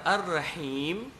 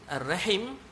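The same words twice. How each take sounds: First: The vowel before the final m is long. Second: The vowel before the final m is short. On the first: The speaker calls it right. "dia alif, lam, ra, ha, ya, mim" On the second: The speaker calls it wrong. "alif, lam, ra, ha, mim"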